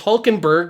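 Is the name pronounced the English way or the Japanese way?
English. The name is said with English pronunciation. "which I assume that's how they pronounce it in English"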